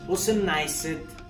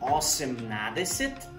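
First: The word is shortened, dropping middle sounds. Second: Every syllable of the full form is said. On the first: This is how it is actually spoken. "la manera al último de cómo se pronuncia" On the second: This is how it is written. "la manera escrita"

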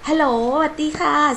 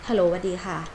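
First: The greeting sounds bright, warm and smiling. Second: The greeting sounds flat, tired and unsmiling. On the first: The caller is friendly and eager to talk. The speaker calls it right. "เสียงยิ้มเห็นไหม" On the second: The caller seems bored and uninterested. The speaker calls it wrong. "ถ้าเป็นเสียงไม่ยิ้มคือ"

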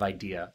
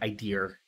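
First: The word ends in a plain vowel, no r. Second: The word ends with an added r sound. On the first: "instead of idea" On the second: "The New Hampshire accent is things like idear"

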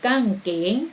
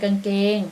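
First: It is said in a Southern Thai accent, slightly faster. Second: It is said in a standard Central Thai accent.

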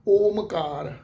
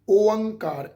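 First: The middle has a clear m sound. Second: The middle has a nasalized vowel instead of m. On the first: This is how some people say it. The speaker calls it wrong. "ਕਈ ਸੱਜਣ ਇਹਦਾ ਪਾਠ ਇਸ ਢੰਗ ਨਾਲ ਵੀ ਉਚਾਰਨ ਕਰ ਲੈਂਦੇ ਆ" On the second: This is the pronunciation the scripture itself gives. The speaker calls it right. "ਪਾਠ ਦਾ ਉਚਾਰਨ ਕੀ ਬਣੇਗਾ, ਓਅੰਕਾਰ"

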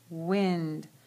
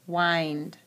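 First: The vowel is a short I sound. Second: The vowel is a long I sound. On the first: "So it's a short I" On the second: "Goes in the long I"

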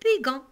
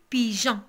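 First: The g is hard, like in go. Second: The g is soft, like in rouge. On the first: The speaker calls it wrong. "Si on n'a pas fait E, on va prononcer pigeon" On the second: The speaker calls it right. "on a ajouté un E pour prononcer pigeon"

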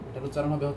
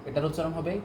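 The two takes are said the same way.

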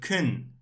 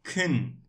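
Both takes have the same delivery.

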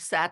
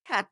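First: The word begins with an S sound. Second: The word begins with a K sound. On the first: The speaker calls it wrong. "আমরা স্যাট বলি না" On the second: The speaker calls it right. "আমরা ক্যাট বলি"

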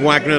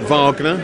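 First: The name is said in a plain, everyday way. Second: The name is said in a posh, refined way. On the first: The speaker calls it right. "I believe I am correct in saying Wagner" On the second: The speaker calls it wrong. "not Wagner. We're not posh around here"

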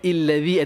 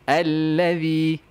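First: The word begins with an i vowel. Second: The word begins with an a vowel. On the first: The speaker calls it wrong. "Tak boleh ada illazi" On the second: The speaker calls it right. "selama-lamanya dia allazi"

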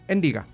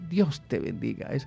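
First: It is clipped short and said grumpily. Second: It is said warmly and cheerfully, in full. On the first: The blessing is given reluctantly, out of habit. The speaker calls it wrong. "damos la bendición con mal genio" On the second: The blessing is given with real affection. The speaker calls it right. "En ese tono de voz que tú le das a ese ser querido"

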